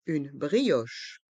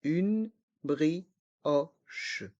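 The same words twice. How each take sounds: First: Said in the usual way. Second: Slow "Une brioche", each syllable apart; learner-paced, split "Une brioche". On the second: Shown as a demonstration. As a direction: separate each sound of "Une brioche", down to the final che. Teacher breaks phrase into syllables.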